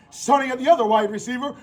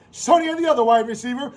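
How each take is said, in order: Both takes have the same delivery.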